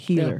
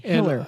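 First: It is said without the local Utah accent. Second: It is said with a local Utah accent. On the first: "I don't say healer" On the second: "I'm from St. George, so I say... I say healer"

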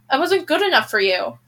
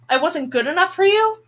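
First: It falls at the end like a statement. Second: It rises at the end like a question.

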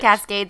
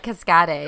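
First: The word has a plain English pronunciation. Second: The word has a made-up French-style pronunciation. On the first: The speaker calls it right. "It's Cascades in English" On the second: The speaker calls it wrong. "But I thought it was like Cascades"

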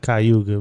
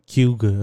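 First: All syllables of the word are said separately. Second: The syllables are run together into fewer. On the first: This is how an outsider from elsewhere says it. "so I know you pronounce it Cayuga" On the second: This is how the local people say it. "they say it like Cuga or something like that. They kind of like put it all together"

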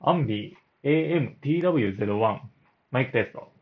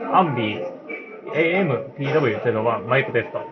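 First: The voice is heard against a silent background. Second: The voice is heard over cafe crowd noise. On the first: "ただいま無音状態で録音しています。" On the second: "ただいまカフェ店内の音を流しています。"

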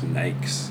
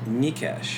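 First: The surname is said in an anglicized way. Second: The surname is said in its original Hungarian way. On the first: This is the form the family adopted in Canada. "they sort of went with an alternate pronunciation, which is just Nikes" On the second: This is how the name is really said. "how is it really said? Mikesh"

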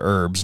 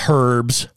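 First: The word starts with a vowel, h silent. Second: The word starts with a pronounced h sound. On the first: The speaker calls it right. "I should have said herbs" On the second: The speaker calls it wrong. "not herbs. All these guys named Herb"

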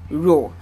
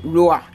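First: The word ends cleanly on the 'or' sound. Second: The word ends with an added 'uh' vowel. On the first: The speaker calls it right. "you should say ro" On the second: The speaker calls it wrong. "you shouldn't say roa"

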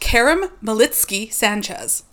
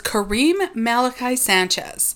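First: The middle name sounds like 'Malitsky'. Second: The middle name sounds like 'Malachi'. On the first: The speaker calls it right. "Not how it's pronounced" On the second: The speaker calls it wrong. "I have always thought his name was"

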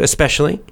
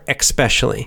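First: It is said without a k sound after the s. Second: It is said with a k sound after the s. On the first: "You can say especially if you want to" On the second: "or you can put the little k, the little kind of K sound in there"

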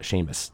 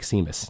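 First: The name is said in its traditional form. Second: The name is sounded out as it is spelled. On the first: This is the name's real pronunciation. The speaker calls it right. "not Seamus" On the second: This is how the spelling misleads readers. The speaker calls it wrong. "it looks like Seamus"

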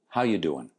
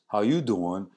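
First: It is said in his plain voice. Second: It is said like Joey from Friends.

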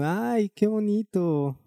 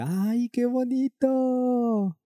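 First: It is said with somewhat less enthusiasm. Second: It is said with strong enthusiasm.

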